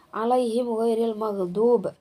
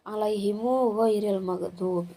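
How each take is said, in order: First: The mim is silent with no following vowel. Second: The mim is followed by a long u.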